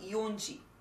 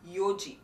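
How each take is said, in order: First: An n sound comes before ji. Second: No n sound comes before ji. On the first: The speaker calls it wrong. "Not yonji" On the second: The speaker calls it right.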